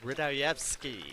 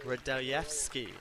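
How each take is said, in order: The two takes are said the same way.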